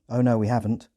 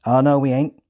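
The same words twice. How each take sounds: First: Said in the usual way. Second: Louder Hampshire farmer voice; Hampshire accent. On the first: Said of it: "translated into British Standard English". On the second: Retold or imitated. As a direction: rural Hampshire denial. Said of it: "in a thick Hampshire accent".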